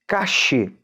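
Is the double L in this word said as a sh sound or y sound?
sh sound. The double L sounds like sh. This is how Argentina and Uruguay say it. "na Argentina e no Uruguai fala como se fosse um C H"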